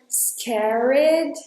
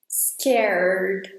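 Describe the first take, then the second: First: An extra vowel is added between R and D. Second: It goes straight from R to D. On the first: The speaker calls it wrong. "don't say the E in the middle, in between R and D. So don't say anything like scared" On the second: The speaker calls it right. "Go straight from R to D"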